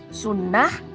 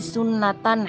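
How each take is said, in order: First: The word ends in an h sound, standing alone. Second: The word ends in a t sound, linked on. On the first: The word stands apart from the next word. "akhiran kata sunnah ini pakai akhiran H" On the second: The word is joined to the next word in one phrase. "berubah menjadi T"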